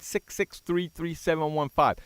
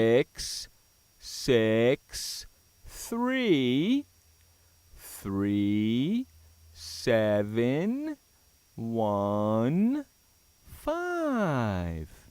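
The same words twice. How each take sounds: First: The number is said at normal speed. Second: The number is said slowly and deliberately.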